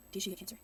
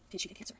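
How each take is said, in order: Both takes have the same delivery.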